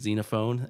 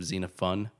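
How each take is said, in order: First: The last syllable sounds like 'phone'. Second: The last syllable sounds like 'fon'. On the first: This is the speaker's preferred way of saying it. "because I like saying Xenophon" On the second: This is the way the other person says is correct. "which is how you're telling me it's pronounced"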